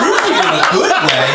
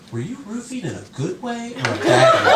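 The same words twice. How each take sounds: First: Loud mock disbelief; stunned group echo. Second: Lightly voiced wife, pitched up; interjecting wife. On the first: Stunned friends echoing the wife's question, incredulous. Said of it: "dead silence. Everyone's like". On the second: Wife interjecting in the friends' conversation, lightly mimicked curiosity. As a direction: ask it as a higher, innocent question. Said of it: "my wife interjects into the conversation".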